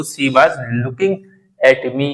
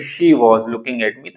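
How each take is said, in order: First: Slow "she was" as see baaz; s in "she", open aa in "was"; local pronunciation. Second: "she" with sh, "was" as wawz; improved pronunciation. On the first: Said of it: "अगर ऐसे बोलो". ("she was" को सी बाज़) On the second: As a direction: clear sh and rounded vowel in "she was". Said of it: "अगर आप उसको यहीं बोल दो". ("she was" को शी वॉज़) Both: Shown as a demonstration.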